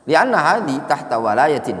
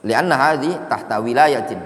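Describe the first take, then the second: First: "walayatin" misread with an a in the first syllable; misread vowel. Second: "wilayatin" with an i in the first syllable; corrected wi- at the start of "wilayatin"; corrected reading. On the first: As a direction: read "walayatin" opening on wa instead of wi. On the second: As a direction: read "wilayatin" opening on wi, not wa. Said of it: "Ini bacanya wilayah". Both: Real, not acted.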